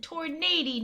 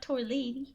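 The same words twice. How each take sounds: First: "tornado" said properly with a clear N and D; "tornado" enunciated as a correction; careful pronunciation. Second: "torlady" with L in place of N, as tor-LAY-dee; "torlady" said as the mistaken version; mispronunciation. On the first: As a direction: say "tornado" clearly, as tor-NAY-do. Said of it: "not torlady". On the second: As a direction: garble tornado into "torlady". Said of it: "I said tornado". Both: Shown as a demonstration.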